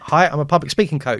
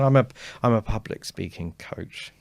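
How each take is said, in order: First: The voice stays clear and strong throughout. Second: The voice gets quieter toward the end.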